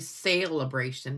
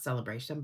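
First: The word is said slowly, each part distinct. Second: The word is said fast, parts run together. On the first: The speaker calls it right. "It's really Sale-a-bration" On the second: The speaker calls it wrong. "we always just say it fast"

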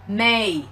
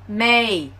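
First: The final k is dropped entirely. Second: The final k is dropped entirely.

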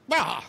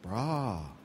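First: It mocks someone acting stupid. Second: It sounds worried and caring.

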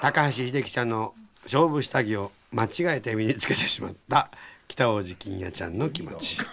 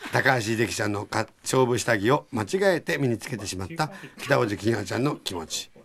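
Both takes have the same delivery.

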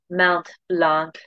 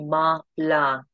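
First: The final consonants of each word are pronounced. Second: The final consonants of each word are silent. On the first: "You can say Mount Blanc if you prefer, whatever's easiest for you" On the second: "the proper French pronunciation, which you don't pronounce the last letter of each word"

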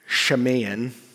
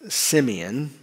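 First: The name is said the Hebrew way, starting 'sh'. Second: The name is said the English way, starting 's'. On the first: "in Hebrew, it would have been more like" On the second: "we pronounce it in English"

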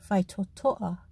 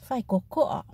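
First: The middle consonants are t sounds. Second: The middle consonants are k sounds. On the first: This is the formal way of speaking. "in formal Samoan, they will use the T sound" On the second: This is the informal way of speaking. "an informal sounding k"

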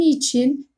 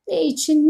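First: It is said as one contracted word. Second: It is said as two full words. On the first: "iki ünlüden biri düşer" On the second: "Aşınma yoluyla düşme"

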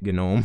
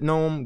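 First: The word starts with a hard g sound. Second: The word starts with an n sound. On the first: The G honours the GNU project. "pronouncing it GNOME when that's originally what they wanted" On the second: This is the ordinary way to say the word. "if you want to pronounce it GNOME, go ahead"

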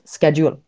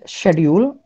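First: It is said with an American accent. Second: It is said with an Indian accent. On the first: "In American accent it's schedule" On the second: "Indian accent schedule"

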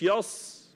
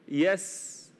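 First: The s sound is heavy, like sad. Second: The s sound is light and thin. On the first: The speaker calls it wrong. "مش يص" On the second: The speaker calls it right. "تركز مع السين المرققة"

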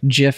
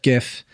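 First: The word begins with a J sound. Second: The word begins with a hard G sound. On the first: "I like to say J instead of G" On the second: "instead of"

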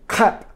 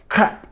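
No difference in how they are said.

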